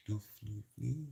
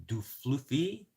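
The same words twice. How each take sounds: First: Du fluffy slow and soft, rising at the end; softer mock French du fluffy; quiet slow French try. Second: Du fluffy drawn out slowly as a French phrase, rising; mock French du fluffy; slow French try. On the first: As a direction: murmur du fluffy slowly in French. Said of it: "I said it correctly one of those times". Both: Shown as a demonstration.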